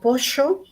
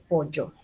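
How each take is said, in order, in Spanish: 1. Se dice con acento bonaerense. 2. Se dice con acento amazónico. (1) "Alguien en Buenos Aires dirá" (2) "alguien tal vez en la Amazonía nos dirá"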